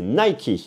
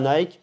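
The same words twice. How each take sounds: First: The name is said in an American style. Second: The name is said in a French style. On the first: The speaker calls it right. "comme disent les Américains" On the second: The speaker calls it wrong. "c'est pas Nike"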